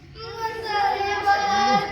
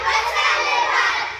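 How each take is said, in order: First: It is said in a crying voice. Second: It is said while laughing.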